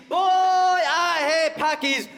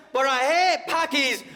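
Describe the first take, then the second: First: Put-on "Boy, I hate" bellowed higher and slower; louder mock shout. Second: High slow shouted hate; mock shout. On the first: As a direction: push "hate" even harder. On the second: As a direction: yell "hate" in a hammed-up rant. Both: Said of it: "be like".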